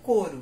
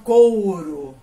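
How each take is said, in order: First: The first vowel is a single plain o. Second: The first vowel glides from o into u. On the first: The speaker calls it right. "a pronúncia correta é coro. Você não precisa subir com esse U" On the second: The speaker calls it wrong. "Algumas pessoas falam couro"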